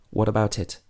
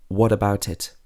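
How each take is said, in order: No difference in how they are said.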